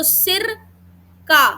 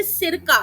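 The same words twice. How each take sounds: First: सिर, a clear break, then का; higher-pitched सिर held apart from का; pause after सिर. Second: Said in the usual way. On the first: Shown as a demonstration. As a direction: split सिर and का with a deliberate pause. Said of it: "विराम आया". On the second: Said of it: "कहाँ पे विराम देना है".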